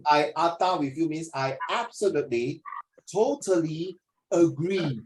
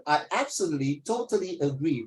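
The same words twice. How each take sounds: First: Slow drawn-out totally agree, each word leaned on; emphatic British phrasing. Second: Said in the usual way. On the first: Shown as a demonstration. Tutor showing students a posh British reply, slow and emphatic. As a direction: lay it on thick like a proper Brit. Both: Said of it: "Very British talking".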